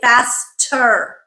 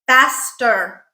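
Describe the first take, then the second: First: The t is released with a puff of air. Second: The t is released without a puff of air. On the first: The speaker calls it wrong. "We do not say faster. Sounds weird" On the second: The speaker calls it right. "No aspiration"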